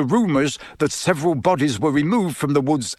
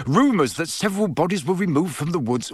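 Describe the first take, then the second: First: Measured reading from a newspaper; reading aloud. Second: Higher-pitched, incredulous quoting; exasperated. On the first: Father reading the report to his family, reading aloud. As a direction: read out the article's wording. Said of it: "Listen to this". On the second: Father repeating the article's claim, exasperated. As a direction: quote it back, fed up. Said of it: "said Mister Weasley in exasperation". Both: A narrator's reading.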